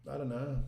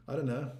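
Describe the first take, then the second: No difference in how they are said.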